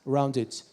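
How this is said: It is said in a British accent. "In British, you say rounded"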